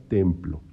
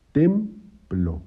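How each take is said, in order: First: Said in the usual way. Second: "templo" broken as "tem... plo", higher on "tem"; split into syllables. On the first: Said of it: "En la palabra templo". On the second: Shown as a demonstration. Teacher showing the two syllables, "templo" said in separate pieces. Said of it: "son dos sílabas".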